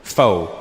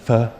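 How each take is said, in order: First: "pho" said low like "foe"; "pho" said low and long like "foe"; pronounced pho. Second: "pho." said with a short clipped vowel like "fuh"; "pho." mock-corrected to sound like "fuh". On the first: Shown as a demonstration. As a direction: say "pho" to rhyme with "toe", low. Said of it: "it's not the way it's pronounced". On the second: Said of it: "it's actually pronounced".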